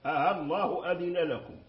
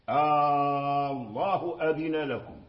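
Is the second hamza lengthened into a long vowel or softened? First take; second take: softened; lengthened. First: The second hamza is softened, between hamza and alif. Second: The second hamza becomes a long drawn-out alif. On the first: "هنا سهلت همزة الوصل" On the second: "هنا أبدلنا همزة الوصل"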